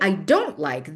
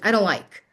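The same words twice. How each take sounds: First: The word don't is stressed. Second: The word don't is not stressed. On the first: The speaker calls it right. "We focus, we stress the word don't" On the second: The speaker calls it wrong. "we don't really say"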